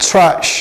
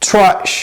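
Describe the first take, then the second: Both takes have the same delivery.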